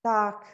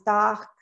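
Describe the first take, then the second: First: The R is dropped and open, British style. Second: The same.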